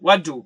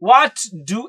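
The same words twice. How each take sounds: First: The two words are joined together. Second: The two words are said separately. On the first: "വളരെ connect ചെയ്തുകൊണ്ട് അങ്ങോട്ട് പറയാൻ പറ്റും" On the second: "വാട്ട് ഡു എന്ന് പറയേണ്ടതില്ല"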